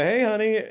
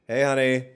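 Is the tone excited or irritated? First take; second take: excited; irritated. First: It sounds excited and happy. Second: It sounds irritated and annoyed.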